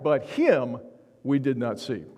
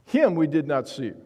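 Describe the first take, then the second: First: Said in the usual way. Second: Louder, HIM stressed first; emphatic. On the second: Shown as a demonstration. Pastor repeats the verse, Him hit with emphasis. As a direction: lean hard on the word Him. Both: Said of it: "the text is very emphatic".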